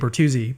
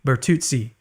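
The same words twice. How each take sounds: First: The name is pronounced in an anglicized way. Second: The name is pronounced in an Italian way. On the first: The speaker calls it wrong. "I say Bertuzzi" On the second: The speaker calls it right. "but it should be Bertuzzi"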